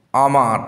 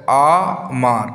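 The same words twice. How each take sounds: First: Said in the usual way. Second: "আমার" slowly as আ, a break, then মার; teacher sounding out আ–মার; split into syllables. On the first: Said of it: "আমার শব্দটা উচ্চারণ করতে গিয়ে". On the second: Shown as a demonstration. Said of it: "break করা আছে".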